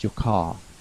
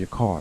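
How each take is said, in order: First: The final R in car is barely pronounced. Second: The final R in car is clearly pronounced. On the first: "British don't pronounce the R very strongly" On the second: "the American way with the R"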